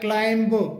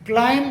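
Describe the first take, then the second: First: A final b sound is pronounced. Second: The word ends on m, no b. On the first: The speaker calls it wrong. "इसे क्लाइंब बोला जाता है" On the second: The speaker calls it right. "सही जो pronunciation होता है वो क्लाइम"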